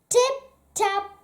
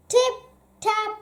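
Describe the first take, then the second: No difference in how they are said.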